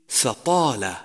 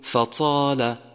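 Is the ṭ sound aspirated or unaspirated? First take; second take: unaspirated; aspirated. First: The ṭ is held with no breath after it. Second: The ṭ is followed by a puff of breath. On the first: The speaker calls it right. "يجب حبس النفس عند النطق به، فلا نتبعه بنفس" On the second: The speaker calls it wrong. "ومن الخطأ أن تقول فطال"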